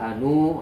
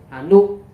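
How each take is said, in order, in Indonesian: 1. Vokal akhirnya dibaca panjang. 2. Vokal akhirnya dibaca pendek. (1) "Jadi nggak dibaca hanu" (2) "Jadi lebih lebih lebih bagus hanu"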